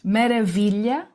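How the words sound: It is said with Portuguese pronunciation. "em português"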